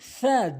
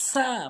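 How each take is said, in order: First: The tongue tip touches the front teeth, th-like. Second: The first sound is a plain hissing s. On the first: The speaker calls it right. "জিব্বার আগার সামনে দুটি দাঁতের আগাতে লাগাবেন" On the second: The speaker calls it wrong. "সা ভুল উচ্চারণ"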